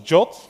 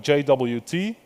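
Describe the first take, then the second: First: It is said as one word, jot. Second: Each letter is said separately.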